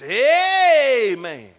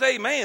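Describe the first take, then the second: First: It is said forcefully, with strong emphasis. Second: It is said plainly, without extra force. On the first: Pay attention, this is important. "That means there's an emphasis on that thing" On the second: It is an ordinary closing word. "it's not just amen"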